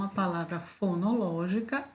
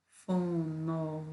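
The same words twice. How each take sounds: First: Said in the usual way. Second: Fonológica broken into separate syllables, fo-no-ló-gi-ca; split into syllables. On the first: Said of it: "quantas sílabas?". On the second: Shown as a demonstration. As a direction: count out each syllable of Fonológica. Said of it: "cinco sílabas".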